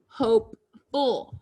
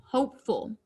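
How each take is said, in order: First: HOPEFUL slowly, with a break between hope and ful; split into word parts. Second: Said in the usual way. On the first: Shown as a demonstration. Word built from base plus suffix.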